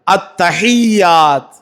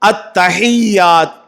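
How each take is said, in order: Both takes have the same delivery.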